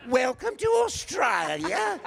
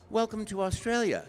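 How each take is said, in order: First: High, loud, indignant Australian shriek; pronounced Australian accent. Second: Said in the usual way. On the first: Retold or imitated. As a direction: drag it out in broad, outraged Australian. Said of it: "she was really talking like that". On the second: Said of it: "Other people are very pronounced accent".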